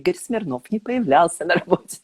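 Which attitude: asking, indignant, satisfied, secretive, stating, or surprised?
satisfied. It is said with a deeply satisfied tone. The speaker is pleased by this. "С чувством глубокого удовлетворения"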